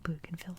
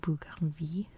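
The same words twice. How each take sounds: First: The name is said with an English pronunciation. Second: The name is said with a French pronunciation. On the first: This is how the British came to say the name. The speaker calls it wrong. "but it's now Bougainville Island because of the British" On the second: This is the original, intended form of the name. The speaker calls it right. "It's supposed to be Bougainville"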